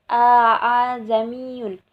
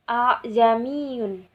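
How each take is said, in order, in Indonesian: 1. Dua vokal berhamzah terpisah membuka kata ini. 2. Dua vokal di awal menyatu dan melunak. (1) "sangat cukup berat untuk melafazkan" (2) "sehingga dibacanya"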